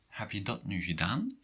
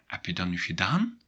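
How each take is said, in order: First: It is said in a plain, neutral way. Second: It is said with an impatient intonation.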